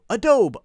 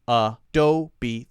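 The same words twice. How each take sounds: First: It is said with two syllables, silent final E. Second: It is said with three syllables, final E voiced. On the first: The speaker calls it wrong. "silent E, long O" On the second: The speaker calls it right. "three syllables"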